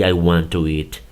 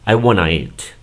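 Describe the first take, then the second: First: Both words are said fully and separately. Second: The words blend quickly into one short word. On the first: Native speakers rarely talk this way. "esta pronunciación que estoy poniendo aquí" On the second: This is how native speakers casually say it. "solamente lo dicen wanna"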